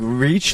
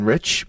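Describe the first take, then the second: First: "reach" with a long ee; the mispronunciation demonstrated. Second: Said in the usual way. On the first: Shown as a demonstration. Co-host pointing out the misread word, "reach" with long ee. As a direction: say "reach", stretching the vowel. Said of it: "I think you meant to say". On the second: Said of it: "like, as in rich".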